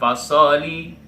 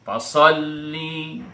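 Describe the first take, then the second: First: The l sound is short and not held. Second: The l sound is doubled and held. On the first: The speaker calls it wrong. "itu namanya tidak ada tasydidnya" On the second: The speaker calls it right. "huruf bertasydid dan ditahan"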